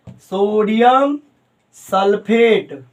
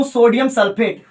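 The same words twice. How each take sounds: First: sodium drawn out and rising, pause, sulphate drawn out and falling; slow dictation. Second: Said in the usual way. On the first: Real, not acted. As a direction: stretch sodium and sulphate out very slowly. Dictating the name for note-taking.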